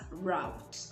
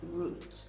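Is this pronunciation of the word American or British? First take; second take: American; British. First: It is said with an American pronunciation. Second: It is said with a British pronunciation. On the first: "that's the American pronunciation" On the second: "if you're sticking with the British pronunciation"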